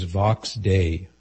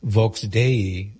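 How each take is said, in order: First: "Vox Dei" with an open "ah" in Vox; English pen-name pronunciation. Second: "Vox Dei" with a rounded "oh" in Vox; Latin pronunciation. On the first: Pen name set against Latin. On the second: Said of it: "In Latin". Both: Shown as a demonstration.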